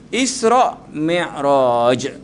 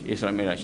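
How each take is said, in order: First: Isra Mi'raj drawn out very slowly, each sound of Isra and Mi'raj given in full; careful pronunciation. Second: Isra Mi'raj run together quickly and lightly, low and soft; casual Isra Mi'raj. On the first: Ustaz teaches the congregation how to say Isra Mi'raj properly. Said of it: "cuma nak sebut betul-betul". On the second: Ustaz shows the congregation the careless everyday Isra Mi'raj. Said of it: "Tapi cuma nak sebut betul-betul". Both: Shown as a demonstration.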